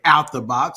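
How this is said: It is said the African American way, dropping 'of'.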